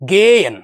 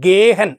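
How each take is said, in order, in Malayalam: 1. "h" ശബ്ദം മധ്യത്തിൽ നിശ്ശബ്ദമാണ്. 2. "h" ശബ്ദം മധ്യത്തിൽ ഉച്ചരിക്കുന്നു. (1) "ഹ എന്ന് പറയുന്ന ഒരു വേർഡ് നമ്മളെ ഉച്ചരിച്ചില്ല" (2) "ഗേഹൻ എന്ന് പറയില്ലയോ"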